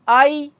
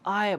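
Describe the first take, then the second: First: The word is said with a heavy Indian-style vowel. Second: The word is said with an English-sounding vowel glide. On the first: The speaker calls it wrong. "आई ना बोलिए" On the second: The speaker calls it right. "आय बोलिए"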